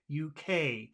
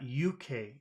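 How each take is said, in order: First: The stress is on the final letter. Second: The stress is on the first letter. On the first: The speaker calls it right. "you always put the emphasis on the final letter" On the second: The speaker calls it wrong. "but it's not U K. It's the opposite"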